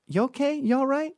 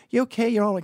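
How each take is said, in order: First: Sugary fake sympathy as she passes; sarcastic concern. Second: High, mock-caring check-in; sarcastic concern. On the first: Touching the woman's arm as she walks by, high mock concern. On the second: To the harassing woman at the airport, high mock concern. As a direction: fake sympathy, pitched way up. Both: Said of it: "I was being sarcastic and facetious".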